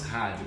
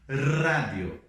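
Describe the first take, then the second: First: The first R is a throaty, guttural sound. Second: The first R is a strong rolled trill. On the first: The speaker calls it wrong. "não falamos rádio, porque esse som de Ra agora é J" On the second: The speaker calls it right. "Então nós falamos rádio"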